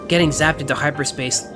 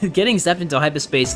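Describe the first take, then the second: First: It is spoken in an American accent. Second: It is spoken in a non-American accent.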